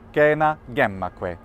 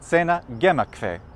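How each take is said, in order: First: Latin spoken with a classical pronunciation. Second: Latin spoken with a German pronunciation. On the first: "in my pronunciation, classical" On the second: "In Germany"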